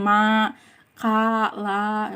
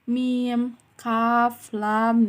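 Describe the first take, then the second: First: Each letter is read as one short syllable. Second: Each letter is read as its full name. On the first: The speaker calls it wrong. "bukan ma, ka, la, bukan gitu ya" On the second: The speaker calls it right. "dibacanya tuh kayak mim"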